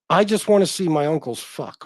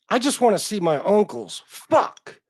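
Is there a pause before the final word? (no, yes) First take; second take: no; yes. First: The words run on with no pause before the last. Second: There is a pause before the last word. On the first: The writer wants to watch his uncles having sex. The speaker calls it wrong. "he didn't put a comma between uncles and fuck" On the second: The writer misses his uncles and adds a curse. The speaker calls it right. "what he meant to say was"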